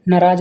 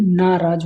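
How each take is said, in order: First: नाराज with a short first a; wrong vowel length. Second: नाराज with a long first aa; correct long vowel. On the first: Teacher shows students the mistake, short first vowel. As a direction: say नाराज as na-raaj. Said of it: "नहीं". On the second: Teacher corrects students, long first vowel. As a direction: say नाराज as naa-raaj. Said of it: "होता है". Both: Shown as a demonstration.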